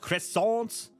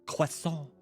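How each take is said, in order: First: The word is said with an American pronunciation. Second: The word is said with a French pronunciation. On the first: The speaker calls it wrong. "That is what the Americans say" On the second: The speaker calls it right. "the correct way to say a croissant"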